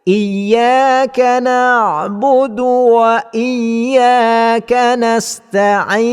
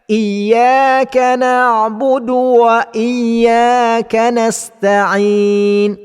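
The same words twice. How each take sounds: No difference in how they are said.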